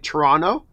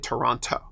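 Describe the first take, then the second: First: It is pronounced the Canadian way. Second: It is pronounced the American way. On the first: "Canadians say Toronto" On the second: "Americans say Toronto"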